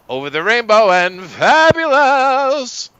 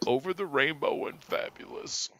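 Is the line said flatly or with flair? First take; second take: with flair; flatly. First: It is said with exaggerated flair. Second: It is read flatly, without flair.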